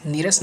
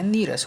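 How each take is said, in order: First: नीरस with short i, niras; wrong form. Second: नीरस with long ee, nee-ras; corrected form. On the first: Teacher shows the error, नीरस with short ni. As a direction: keep the first vowel of नीरस short. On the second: Teacher corrects students, नीरस with long nee. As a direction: stretch the first vowel of नीरस. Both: Shown as a demonstration. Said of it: "नहीं होता है".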